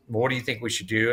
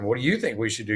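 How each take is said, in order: First: Said in the usual way. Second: "you" leaned on, tossing the question back; "What do you think we should do?" with the weight on "you"; stress on you. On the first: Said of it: "And he says". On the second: Retold or imitated. Bouncing the attorney's own question back at him, stressing "you". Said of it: "And I said".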